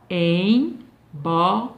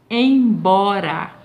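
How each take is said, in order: First: "Embora" very slowly in three beats, EM, BO, RA; separado em sílabas. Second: Said in the usual way. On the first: Shown as a demonstration. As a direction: break "Embora" into syllables with long pauses. ("Embora" bem devagar, em... bo... ra, sílaba por sílaba) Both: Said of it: "três vezes pra falar essa palavra".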